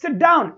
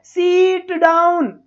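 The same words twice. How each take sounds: First: Said in the usual way. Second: सीट डाउन very slow, long "seeeet"; exaggerated wrong सीट डाउन, stretched out slowly; drawn-out vowels. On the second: Shown as a demonstration. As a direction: drag the ee in सीट far too long. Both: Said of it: "ऐसे थोड़ी बोलते हैं".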